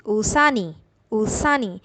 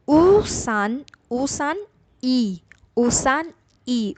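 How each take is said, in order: First: ऊसानी run together fast, as one smooth word; quick, joined. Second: Slow, with ऊसान and ई said apart as two separate words; slow, separated. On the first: Teacher showing students the fast, linked ऊसानी. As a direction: blend ऊसान and ई quickly into ऊसानी. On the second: Teacher slowly separating the parts for students, ऊसान ई kept apart. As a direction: spell out ऊसान ई slowly, syllable by syllable. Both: Shown as a demonstration. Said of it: "speed में बोलेंगे थोड़ी तेज़ी से".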